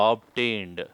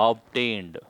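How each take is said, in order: Both takes have the same delivery.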